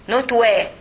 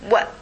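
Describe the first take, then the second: First: The w sound has a vowel after it. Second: The w sound has no vowel after it. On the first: The speaker calls it wrong. "This is not wa" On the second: The speaker calls it right. "the wa with the sukun"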